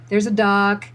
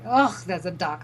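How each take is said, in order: First: It is said in a neutral, accepting tone. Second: It is said in a disgusted, intolerant tone.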